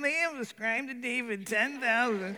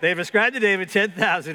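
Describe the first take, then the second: First: The voice is whiny and complaining. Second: The voice is plain and neutral.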